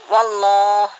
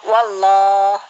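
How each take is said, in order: Both takes have the same delivery.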